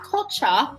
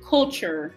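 First: The word is said with a non-American pronunciation. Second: The word is said with an American pronunciation. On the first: The speaker calls it wrong. "not culture" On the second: The speaker calls it right. "but culture"

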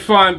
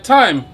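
First: Thyme is pronounced the Jamaican way. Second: Thyme is pronounced a non-Jamaican way. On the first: This is how Jamaicans say it. "We say thyme because we're Jamaicans" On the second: This is how other people say it. "but some people say thyme"

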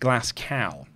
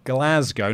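First: The city name is said the American way. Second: The city name is said the British way. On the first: The speaker calls it wrong. "not Glasgow, as some of our Americans would have us think that it is said" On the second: The speaker calls it right.

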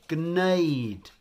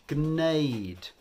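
No difference in how they are said.

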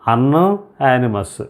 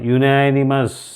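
First: The word begins with an 'un' sound. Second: The word begins with a 'you' sound. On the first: The speaker calls it wrong. "యునానిమస్ అనకుండగా అన్ యానిమస్" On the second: The speaker calls it right. "అందుకోసం నేను దీన్ని చదువుతున్నా యునానిమస్"

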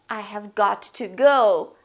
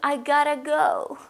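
First: Each word is pronounced fully and separately. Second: The words blend into a short reduced form. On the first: "Gotta means got to or have got to" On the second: "And it turns into"

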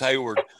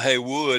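First: The name ends with a 'ward' sound. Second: The name ends with a 'wood' sound. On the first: The speaker calls it right. "it's Hayward" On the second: The speaker calls it wrong. "It's not Haywood"

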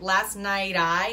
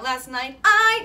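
First: The words run together with no break before 'I'. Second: A glottal stop separates 'I' from the previous word. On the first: The speaker calls it right. "I want you to connect last night I" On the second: The speaker calls it wrong. "instead of going last night I, no glottal on the I"

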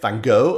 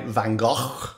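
First: The name is pronounced the American way. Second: The name is pronounced a non-American way. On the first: "as Americans say" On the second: "as they say"

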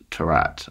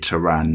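First: The final T is sounded. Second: The final T is silent. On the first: The speaker calls it wrong. "or however you people would say it if they didn't know it was a silent T" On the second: The speaker calls it right. "Then you say it Taran"

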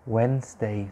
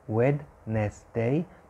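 First: The D and middle E are silent. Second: The D and middle E are sounded out. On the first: The speaker calls it right. "it is pronounced Wednesday, so the D is silent" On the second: The speaker calls it wrong. "It is spelled Wednesday, so Wednesday"

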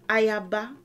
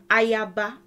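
No difference in how they are said.

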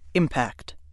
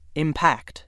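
First: The stress falls on the first syllable. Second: The stress falls on the second syllable. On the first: It is a noun: the striking of one object against another. "If word 6 is being used as a noun, ... it is pronounced impact" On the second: It is a verb: to affect, especially forcefully. "The other pronunciation of word 6 is impact. ... used when word 6 functions as a verb"

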